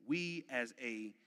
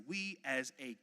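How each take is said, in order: Both takes have the same delivery.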